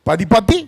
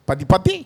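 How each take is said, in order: First: The name is said in a garbled North Indian way. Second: The same.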